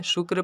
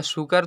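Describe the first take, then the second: First: "शुक्र" as shukr, क and र joined; correct pronunciation. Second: "शुक्र" split as shu-kar; wrong pronunciation. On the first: Teacher gives learners the proper reading, "शुक्र" as shukr. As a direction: run क straight into र in "शुक्र". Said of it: "शुक्र पढ़ेंगे". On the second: Teacher shows the reading to avoid, "शुक्र" as shu-kar. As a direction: add a vowel between क and र in "शुक्र". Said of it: "शुक्र तो नहीं पढ़ेंगे". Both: Shown as a demonstration.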